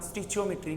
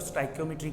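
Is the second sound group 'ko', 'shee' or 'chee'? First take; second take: chee; ko. First: It starts 'sti-chee' with a ch sound. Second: It starts 'sty-ko' with a hard k sound. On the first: "तीसरा तरीका" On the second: "इसको बोलने के तीन तरीके हैं। एक तो स्टाइकोमेट्री कहा जाता है"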